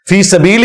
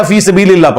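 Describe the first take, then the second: First: فی سبیل ending in the pronoun "-ihi"; the proper reading, فی سبیل closed with "-hi"; correct word ending. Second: فی سبیل اللہ ending in "-illah"; the faulty reading, فی سبیل اللہ with "Allah" added; misread word ending. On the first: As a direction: say فی سبیل as "fi sabeelihi". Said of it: "فی سبیل ہی تھا". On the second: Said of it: "فی سبیل اللہ پڑھ دیا". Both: Shown as a demonstration.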